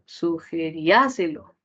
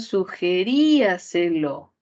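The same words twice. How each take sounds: First: The stress falls on the a syllable. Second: The stress falls on the rí syllable. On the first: "Si la mayor persona no estuviera en la I ... ¿cómo sería? Podría ser" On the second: "En la segunda palabra"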